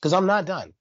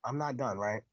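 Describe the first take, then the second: First: Said in the usual way. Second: "I'm not done" dropped much softer, "not" still leaned on; softer repeat. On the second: Shown as a demonstration. Host quietly repeating that he is not finished, much softer. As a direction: murmur "I'm not done" to yourself, "not" held. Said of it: "'Cause I'm not done".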